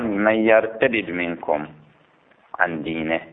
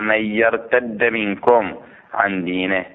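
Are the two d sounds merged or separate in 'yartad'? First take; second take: separate; merged. First: The two d sounds are pronounced separately. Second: The two d sounds merge into one doubled d. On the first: "يصح القراءة أيضا" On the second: "من يرتد المدغمة صحيح"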